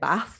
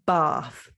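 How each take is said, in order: First: It is said in a northern English accent. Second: It is said in a southern English accent. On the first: "people from the north, which is me, obviously, um, we say bath like that" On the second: "people from the south of England say bath"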